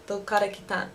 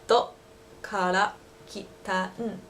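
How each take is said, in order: First: Dokara kitan rattled off quickly; quick native speed. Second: Slow, drawn-out Dokara kitan. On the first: Local asking where you're from, quick native pace. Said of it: "really, really fast". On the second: Local repeating the question slowly, drawn out. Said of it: "say it a little bit slower for you". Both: Shown as a demonstration.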